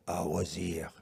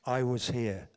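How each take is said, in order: First: Put-on low French-accented English; weird French accent. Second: Said in the usual way. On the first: Repeating the friend's words for the audience, in a weird French accent. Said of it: "I said it in a weird French accent".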